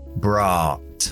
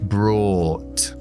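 First: An American accent with less rounded lips on the vowel. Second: A British accent with rounded lips on the vowel.

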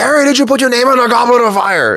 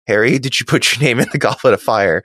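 First: Dumbledore's line is yelled angrily. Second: Dumbledore's line is said calmly.

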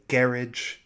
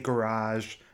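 First: It is said the British way, stressed at the start. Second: It is said close to the French, stressed at the end. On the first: "but they say" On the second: "they could easily say"

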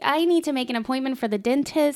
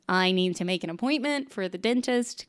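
First: The voice is higher and brightly polite. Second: The voice is lower and relaxed. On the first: This is the voice she puts on for phone calls. "Let's hear the normal or the phone voice" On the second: This is her everyday way of talking. "regular [name] is a little bit down here"

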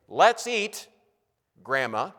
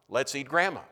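First: There is a pause before "Grandma." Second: There is no pause before "Grandma." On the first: Grandma is being called to come and eat. The speaker calls it right. "First statement" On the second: Grandma is the one being eaten. The speaker calls it wrong. "No comma"

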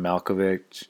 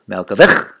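First: The name is said in a plain way. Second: The name is said in a Jewish-style way.

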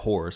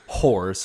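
First: The word is said plainly, without extra emphasis. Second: The word is said with heavy, cocky emphasis.

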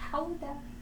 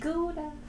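First: The word begins with a breathy H-like sound. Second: The word begins with a hard G sound. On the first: The name is said the Dutch way. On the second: The name is said the English way.

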